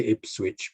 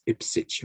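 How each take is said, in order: First: "Ipswich" as IPS-witch, w sounded; "Ipswich" read as spelt; spelling pronunciation. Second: "Ipswich" as IP-sitch, w dropped; "Ipswich" pronounced "Ipsitch"; silent W. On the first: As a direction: pronounce the w in "Ipswich". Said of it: "you don't say Ipswich". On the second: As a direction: drop the w in "Ipswich". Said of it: "but it's Ipswich or something". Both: Shown as a demonstration.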